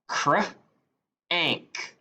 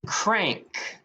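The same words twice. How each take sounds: First: "Cr-ank" split, cr then ank; segmented into onset and rime. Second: Said in the usual way. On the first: Shown as a demonstration. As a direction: sound out "Cr-ank" in two parts.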